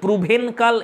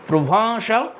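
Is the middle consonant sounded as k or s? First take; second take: k; s. First: The middle consonant is a hard k sound. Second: The middle consonant is a soft s sound. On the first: The speaker calls it wrong. "বানান অনুযায়ী প্রুভেনকাল এরকম হয়" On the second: The speaker calls it right. "কিন্তু এর প্রোনাউন্সিয়েশনটা হবে"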